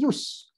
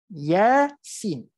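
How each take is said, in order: First: The letters are blended into one syllable. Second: Each letter is said separately by its name. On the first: The speaker calls it wrong. "ataupun yus" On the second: The speaker calls it right. "dia tidak bergabung sebutannya. Sebab itulah kita sebut Yasin"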